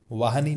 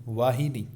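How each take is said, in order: First: वाहिनी said as vaahni, i dropped; mispronunciation demo. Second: वाहिनी with a clear hi; correct pronunciation. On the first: Teacher shows the mistake, वाहिनी mispronounced as vaahni. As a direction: drop the middle i of वाहिनी. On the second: Teacher corrects the word, वाहिनी pronounced vaa-hi-ni. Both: Shown as a demonstration. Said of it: "वाहिनी नहीं".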